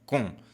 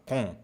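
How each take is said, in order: First: The vowel is closed and tight. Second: The same.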